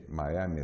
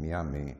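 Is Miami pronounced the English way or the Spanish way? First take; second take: English; Spanish. First: Miami is pronounced with an English accent. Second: Miami is pronounced with a Spanish accent. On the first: This is how it is now more generally said in Spain. "to pronounce the English way" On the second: This is the original local way of saying it. "originally Spanish"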